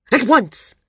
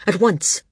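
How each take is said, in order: First: Higher, louder, impatient repeat; snapped order, escalating. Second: Firm, contained command; snapped order. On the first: Landsman repeats his order to the guard, snapping harder. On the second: Landsman orders his guard to hurry, snapped but contained. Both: A narrator's reading. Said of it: "he snapped".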